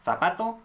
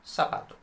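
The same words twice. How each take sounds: First: The z sounds like the th in think. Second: The z sounds like an s. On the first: "So just th" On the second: "S is also perfectly fine"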